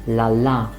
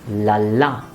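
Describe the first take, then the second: No difference in how they are said.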